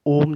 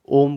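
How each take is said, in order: First: Said in the usual way. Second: ओम with the ओ held long, three beats; drawn-out Om. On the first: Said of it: "ओ के बाद तीन लगा देते हैं". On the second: Shown as a demonstration. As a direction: stretch the ओ in ओम like a chant. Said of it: "ज़्यादा time तक उसको बोलते हैं". (ओम में ओ को लंबा खींचकर)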